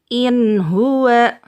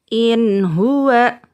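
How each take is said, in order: Both takes have the same delivery.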